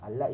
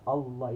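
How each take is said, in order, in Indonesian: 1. L itu tipis. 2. L itu tebal. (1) "Allah itu nipis" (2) "Allah itu tebal"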